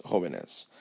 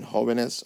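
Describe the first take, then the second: First: Jóvenes said with a final falling tune; jóvenes settled down, final; model word, falling. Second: Jóvenes said with a rising tune, as if listing; first take of jóvenes, tune going up; jóvenes with a lifted, unfinished ending; model word, rising. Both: Shown as a demonstration.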